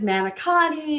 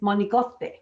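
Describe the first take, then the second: First: It is said with an American pronunciation. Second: It is said with an Italian pronunciation. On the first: "everybody says" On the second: "the pronunciation from a true Italian is"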